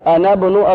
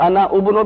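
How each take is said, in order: First: The vowel is dropped and the words join together. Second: The word ibnu begins with a separate u vowel. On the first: The speaker calls it right. "क्या पढ़ेंगे मिला के?" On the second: The speaker calls it wrong. "अना उबनो भी नहीं पढ़ेंगे"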